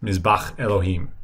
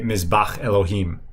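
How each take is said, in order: Both takes have the same delivery.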